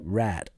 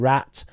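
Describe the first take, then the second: First: The word ends in a light D sound. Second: The word ends in a T sound. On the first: "change the T to a D" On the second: "instead of rat"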